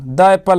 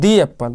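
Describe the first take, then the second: First: 'The' is said with a short 'uh' vowel. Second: 'The' is said with a long 'ee' vowel. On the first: The speaker calls it wrong. "द एप्पल ना" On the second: The speaker calls it right. "इसलिए इसको क्या पढ़ेंगे? दी पढ़ेंगे।"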